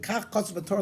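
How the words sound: It is said sharply, like an accusation. It charges the listener with doing wrong. The speaker calls it wrong. "like in a in accusatory manner"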